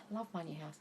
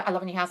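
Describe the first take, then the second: First: It is said warmly, with feeling. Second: It is said flat, fast and monotone.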